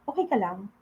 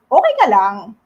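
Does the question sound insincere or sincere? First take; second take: sincere; insincere. First: It is asked in a sincere, caring tone. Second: It is asked in an insincere, unfriendly tone. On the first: The asker really wants to know how you are. "So you hear sincerity" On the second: The asker does not really care how you are. "the meanings are totally different"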